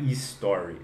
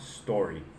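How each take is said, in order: First: An extra vowel sound comes before the S. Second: The word starts directly with the S sound. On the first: The speaker calls it wrong. "não é story" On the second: The speaker calls it right. "só S, é só story"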